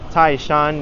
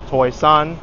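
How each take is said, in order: First: The name is said in Mandarin, as Taishan. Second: The name is said in Cantonese, as Toisan. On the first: "it's pronounced Taishan in Mandarin" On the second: "the Cantonese"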